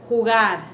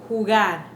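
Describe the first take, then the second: No difference in how they are said.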